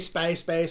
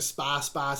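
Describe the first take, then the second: First: The name sounds like 'space space'. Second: The name sounds like 'spas boss'. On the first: The speaker calls it wrong. "whether you say Space Space" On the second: The speaker calls it right. "or Spas Boss. It's Spas Boss. Get it right"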